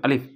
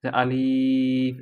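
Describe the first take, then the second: First: আলিফ clipped short with no stretch; short Alif. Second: আলিফ stretched very long, slow; drawn-out Alif. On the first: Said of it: "একদম অল্প পরিসরে". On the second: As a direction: hold the vowel of আলিফ long as the wrong way. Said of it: "টান হচ্ছে এরকম". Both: Shown as a demonstration.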